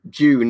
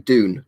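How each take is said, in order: First: The word starts with a J-like sound. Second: The word starts with a clear D sound. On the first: "with like British pronunciation, June is like said almost with a J" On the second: "with Americans they say Dune"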